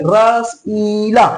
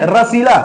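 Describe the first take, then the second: First: रसीला spoken very slowly with the long ई stretched; teacher stretches रसीला to show the long vowel; slow drawn-out demo. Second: Said in the usual way. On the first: Shown as a demonstration. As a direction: draw out रसीला so the long ई stands out. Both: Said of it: "फर्क समझिए".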